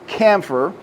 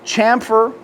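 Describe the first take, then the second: First: The word begins with a k sound. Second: The word begins with a ch sound. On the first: This is how southern speakers say it. "I have heard a lot of the southern smiths say camphor" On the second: This is how northern speakers say it. "Most of your northern folks I have heard say chamfer"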